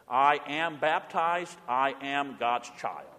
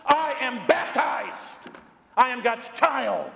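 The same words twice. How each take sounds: First: Slow, soft, deliberate recitation; quiet, measured confession of faith; slow creed. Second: Higher, slow, emphatic creed; slow, ringing statement of faith; bold declaration. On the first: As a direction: say each word slowly and quietly. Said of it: "Say it with me". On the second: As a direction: declare it boldly against every fear. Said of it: "the boldness that arises". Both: Shown as a demonstration.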